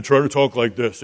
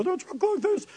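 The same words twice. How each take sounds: First: Lightly put-on manly voice; a hint of a deep-voiced man. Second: Very high, soft squeaky voice; mock high-pitched little voice; not manly. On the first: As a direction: talk like a manly older brother. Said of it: "manly voice like Esau would". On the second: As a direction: put on a tiny falsetto. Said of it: "Try to talk with your deep".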